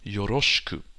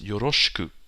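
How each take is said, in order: No difference in how they are said.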